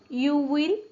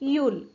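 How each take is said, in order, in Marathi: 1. हे दोन वेगळे पूर्ण शब्द म्हणून म्हटले जाते. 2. हे एका आकुंचित अक्षरासारखे म्हटले जाते.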